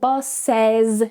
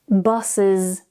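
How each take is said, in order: First: The ending is said with an 'es' vowel. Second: The ending is said with an 'is' vowel. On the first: The speaker calls it wrong. "we're not saying" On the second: The speaker calls it right. "It's with this miserable I sound"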